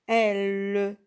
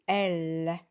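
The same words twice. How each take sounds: First: "L" said with a closed "eu" vowel, like "eul"; "L" with the wrong muffled vowel, as a warning example; wrong reading. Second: "L" said slowly with an open "è", like "ell"; "L" drawn out with a clear open "è"; correct reading. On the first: Teacher to pupils, showing the mistake: a "L" voiced like "eul". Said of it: "On dit pas". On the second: Teacher to pupils, modelling the right sound: a slow, open "L". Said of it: "on dit L". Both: Shown as a demonstration.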